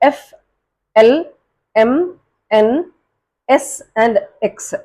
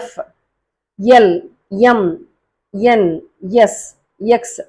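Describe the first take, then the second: First: Each letter name begins without any y sound. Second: Each letter name begins with an added y sound. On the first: The speaker calls it right. "அந்த ஒய் வந்து அந்த consonant sound அந்த இடத்துல வரக்கூடாது" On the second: The speaker calls it wrong. "ஒய் சவுண்டை முன்னாடி add பண்ணிடுறோம்"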